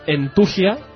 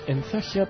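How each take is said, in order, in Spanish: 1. Se dice con pronunciación española. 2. Se dice con pronunciación inglesa.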